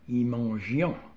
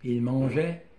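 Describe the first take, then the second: First: The plural verb ending is pronounced aloud. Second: The plural verb ending is silent.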